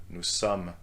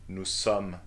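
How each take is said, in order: Both takes have the same delivery.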